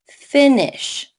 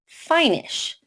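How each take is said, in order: First: The first vowel is short. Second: The first vowel is long. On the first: The speaker calls it right. "make the first vowel short" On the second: The speaker calls it wrong. "Rule eight would make it sound like finish"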